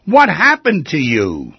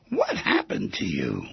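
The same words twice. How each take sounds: First: Louder, drawn-out concerned question; slow, pressing, raised voice. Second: Lower, softer, slowed-down question. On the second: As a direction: hush it, slow and gentle. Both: Shown as a demonstration. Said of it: "repeated question, varied delivery".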